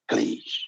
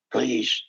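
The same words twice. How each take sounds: First: "Please" breathed out almost voiceless; whispered begging. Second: Said in the usual way. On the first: Real, not acted. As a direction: let the plea fade to a whisper. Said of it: "repeated plea, fading". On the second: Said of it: "repeated plea".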